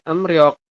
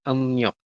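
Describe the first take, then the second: First: The second syllable begins with an r sound. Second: The second syllable begins with an n sound. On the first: The speaker calls it wrong. "bacanya bukan Emriok" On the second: The speaker calls it right. "Jadi dibacanya Emnyok"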